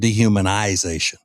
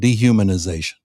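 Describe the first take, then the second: First: The ending '-ization' is given heavy emphasis. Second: The ending is said plainly, without extra emphasis. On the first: The speaker wants to sound educated and sophisticated. "He's really giving emphasis to it here" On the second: The speaker is an ordinary person. "normal people who aren't so brilliant would have said dehumanization"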